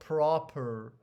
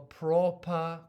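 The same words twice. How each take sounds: First: The vowel is said with an American accent. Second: The vowel is said with a British accent. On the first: "the Americans say uh, the O, they pronounce the O like a proper" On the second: "But the British, they say O"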